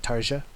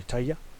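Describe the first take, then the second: First: The J is said as a J. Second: The J is said like a Y. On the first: The speaker calls it wrong. "but I like to say Tarja" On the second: The speaker calls it right. "I know her name is pronounced something like Tarja"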